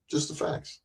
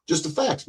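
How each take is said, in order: First: Whispered Just the facts; hushed whispered aside. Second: Said in the usual way. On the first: Real, not acted. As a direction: breathe it out as a whisper. Repeats phrase, second time whispered.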